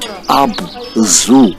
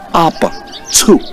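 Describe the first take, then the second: First: The last syllable sounds like "zoo". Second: The last syllable sounds like "tsu". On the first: The speaker calls it wrong. "not Abzu as in animal zoo" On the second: The speaker calls it right. "They pronounced the Z U as Tsu"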